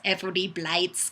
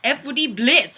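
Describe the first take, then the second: First: "Blights" said with a long i, like lights; spelled pronunciation. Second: Said in the usual way. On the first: Shown as a demonstration. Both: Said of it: "although it's spelled more like Blights".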